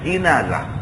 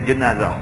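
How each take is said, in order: First: The first vowel is a front i sound. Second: The first vowel is a weak schwa sound. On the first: "baris di bawah jim" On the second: "Orang Melayu dia jenazah, tak ada baris"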